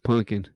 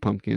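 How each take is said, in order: First: The word is said in an imitated regional accent. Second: The word is said in a plain, ordinary accent. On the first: The speaker calls it right. "That's how they would pronounce it" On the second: The speaker calls it wrong. "That's not Pumpkin"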